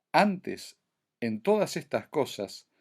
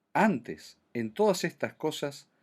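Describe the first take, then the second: No difference in how they are said.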